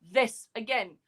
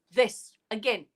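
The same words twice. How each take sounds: The two takes are said the same way.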